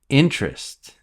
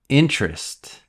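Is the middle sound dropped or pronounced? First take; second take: dropped; dropped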